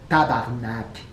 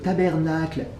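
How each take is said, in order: First: The word is clipped short to tabarnak. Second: The word is said in full as tabernacle. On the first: The speaker calls it right. "Faut prononcer vraiment le mot comme ça" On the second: The speaker calls it wrong. "En français, vous dites au tabernacle. C'est vraiment pas le style québécois"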